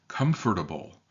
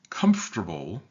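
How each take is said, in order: First: The word is said with every syllable clearly pronounced. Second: The word is said quickly with a syllable dropped. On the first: This is how careful, articulate speakers say it. "if you listen to particularly articulate people" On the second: This is how most people casually say it. "the way most of us say it"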